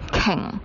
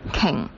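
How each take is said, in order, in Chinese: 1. 这个词是按粤语的发音读的。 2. 这个词是按粤语的发音读的。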